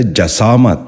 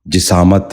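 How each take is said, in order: First: جسامت said "ja-saamat", with a after the j; short a in the first syllable of جسامت; correct pronunciation. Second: جسامت said "ji-saamat", with i after the j; short i in the first syllable of جسامت; wrong pronunciation. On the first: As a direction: say جسامت as "ja-SAA-mat". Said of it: "درست تلفظ ہے". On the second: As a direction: say جسامت as "ji-SAA-mat". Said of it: "غلط تلفظ ہے". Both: Shown as a demonstration.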